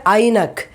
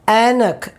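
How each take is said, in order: First: Ainak with an eye sound; the wrong way: Ainak, with an eye sound; wrong pronunciation. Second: Anak with a short a as in cat; correct pronunciation. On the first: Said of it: "We don't say". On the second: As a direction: say Anak, not Ainak. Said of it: "We say". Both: Shown as a demonstration.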